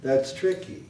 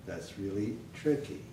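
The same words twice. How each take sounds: First: THAT'S TRICKY pitched up, dropping after TRICK; raised falling intonation. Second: THAT'S REALLY TRICKY soft and pitched down; low falling intonation. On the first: Teacher shows the fall up here, falling intonation. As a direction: start THAT'S TRICKY up and roll over. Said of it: "Up here". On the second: Teacher drills the fall lower down, soft falling intonation. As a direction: let TRICKY drop away softly. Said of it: "this is the fall". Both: Shown as a demonstration.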